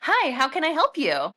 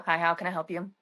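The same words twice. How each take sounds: First: Higher, bright customer-service greeting; sweet receptionist greeting; phone voice. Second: Lightly perky phone greeting; a hint of perky service voice; understated perky answer. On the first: Shown as a demonstration. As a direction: put on the pleasant phone voice. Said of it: "phone voice choice comes out". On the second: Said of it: "Perky-esque voice".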